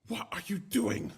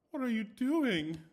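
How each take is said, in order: First: Louder, slower shocked demand; reread, still upset and loud; upset wife. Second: High, loud, slow demand; shocked and upset wife confronting the maid. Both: A narrator's reading. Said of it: "and asked".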